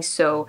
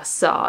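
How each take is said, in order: First: "so" standing for saw, with a long O; mispronounced saw. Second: "saw" with an open AW vowel; correct saw. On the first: Learner showing viewers her slip, mispronounced. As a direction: round the vowel into "so". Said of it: "I keep saying so". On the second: Learner copying the app, correct vowel. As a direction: say "saw" open, American style. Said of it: "Yeah, saw". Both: Shown as a demonstration.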